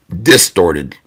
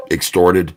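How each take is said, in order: First: "Distorted" said slowly with a clear di- start; corrected word. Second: Low, soft "extorted" with an ex- start; wrong word. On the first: Correcting the chat's misword, deliberate "Distorted". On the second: Reading back the chat's misword "extorted", quiet. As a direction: say "extorted", the misheard word from chat. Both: Shown as a demonstration. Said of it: "the word you're looking for is distorted".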